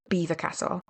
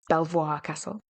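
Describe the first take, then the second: First: The first word sounds like 'Beaver'. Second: The first word sounds like 'Bel-vwar'. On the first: This is how local people say the name. "that's how you pronounce it" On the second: This follows the spelling of the name. "it's spelled as if it's Belvoir Castle"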